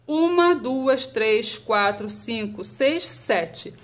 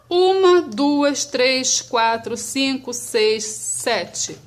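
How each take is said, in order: Both takes have the same delivery.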